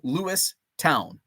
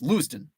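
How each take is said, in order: First: The last syllable is a full 'town'. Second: It is said quickly, ending in 'ton'. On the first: This follows the spelling. "it's spelled Lewistown" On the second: This is how residents actually say it. "It's pronounced Lewiston, but you have to say it really fast"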